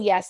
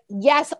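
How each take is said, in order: First: The word is said small and quiet. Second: The word is said loud and forceful. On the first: A hesitant, weak agreement. The speaker calls it wrong. "not like a little yes" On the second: A total, emphatic agreement. The speaker calls it right. "like yes, all capital letters with fifty exclamation points"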